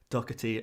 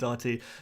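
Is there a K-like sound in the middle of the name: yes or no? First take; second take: yes; no. First: The middle is said with a K-like sound. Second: The middle is said with a plain h sound. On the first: "it baffles me how people say it" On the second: "there isn't a K in"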